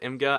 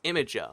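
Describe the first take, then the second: First: It is said as 'im-gur', two short syllables. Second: It is said like 'imager', with an extra vowel. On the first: This is how most people say it. The speaker calls it wrong. "everyone pronounces it Imgur" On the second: This is the official pronunciation. The speaker calls it right. "that's officially pronounced Imager"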